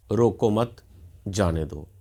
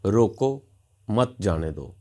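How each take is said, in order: First: Group रोको with मत, break, then say जाने दो; pause after मत. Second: "रोको" alone and rising, pause, then "मत जाने दो" falling; pause after रोको. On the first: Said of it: "दूसरे वाक्य का अर्थ है किसी को रोकना, नहीं जाने देना". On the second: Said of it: "तीसरे वाक्य का अर्थ है रोकना है". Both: Shown as a demonstration.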